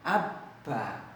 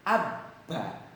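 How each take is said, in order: The two takes are said the same way.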